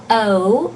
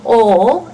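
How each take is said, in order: First: "O" gliding from "uh" to "oo", two vowels; diphthong O. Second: "O" as one pure, unglided vowel. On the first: Teacher showing what to avoid, gliding "O" as "oh-oo". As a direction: say "O" as English "oh" with a glide. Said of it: "O is a diphthong, has two vowels". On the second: Teacher showing students the mouth position, pure unglided "O". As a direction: say "O" as a single steady "aw"-like sound. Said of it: "just saying O and not O". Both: Shown as a demonstration.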